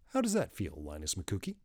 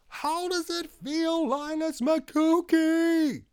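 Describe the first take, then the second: First: It is said at normal loudness. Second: It is shouted very loudly.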